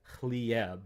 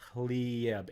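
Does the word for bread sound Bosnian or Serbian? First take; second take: Bosnian; Bosnian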